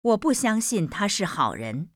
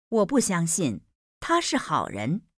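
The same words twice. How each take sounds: First: 不 pushed up and leaned on, the rest light; stress on 不. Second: 他 lifted and stressed, 不 left light. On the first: Teacher stressing 不 to show the contrast. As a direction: lean hard on 不 in 我不相信他是好人. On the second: Teacher stressing 他 to show the contrast. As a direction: stress 他 in 我不相信他是好人. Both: Shown as a demonstration. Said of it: "demo of stress".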